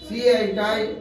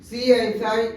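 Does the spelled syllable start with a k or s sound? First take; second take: k sound; s sound. First: The syllable begins with a k sound. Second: The syllable begins with an s sound. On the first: "কাই" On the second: "সাই"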